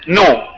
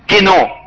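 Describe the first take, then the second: First: The word starts without a k sound. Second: The word starts with a k sound. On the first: "جاية من كلمة نو" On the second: "في اليوناني بتتنطق كده كينو"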